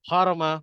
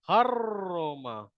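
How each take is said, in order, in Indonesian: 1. R itu tunggal dan dipotong pendek. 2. R itu ganda, digetarkan, dan ditahan lama. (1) "jangan kita baca harma" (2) "Pastikan bergetar lidah tu"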